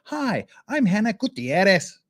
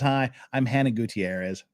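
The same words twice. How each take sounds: First: The name is said with a Spanish-style accent. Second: The name is said with a plain English accent. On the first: The speaker calls it wrong. "do the I've gone native pronunciation" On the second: The speaker calls it right. "Or do you think she just says"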